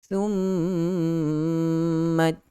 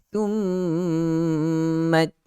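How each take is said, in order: The two takes are said the same way.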